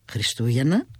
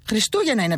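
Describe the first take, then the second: First: Χριστούγεννα asked lower, rising at the end in disbelief; surprised question. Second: Said in the usual way. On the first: A narrator's reading. Son echoes his mother's answer with a surprised rising Χριστούγεννα. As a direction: echo Χριστούγεννα back, puzzled.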